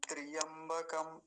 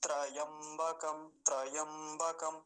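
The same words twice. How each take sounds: First: त्रियंबकम with an added इ after त्र; wrong त्रियंबकम, slowed a little; wrong ee sound. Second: त्रयंबकम slowly, no इ after त्र; slow correct त्रयंबकम; correct pronunciation. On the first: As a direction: show the common mistake त्रियंबकम. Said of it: "ई की मात्रा जैसा उच्चारण आता है". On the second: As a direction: model the right त्रयंबकम, slow. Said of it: "ऐसा नहीं बोलेंगे". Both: Shown as a demonstration.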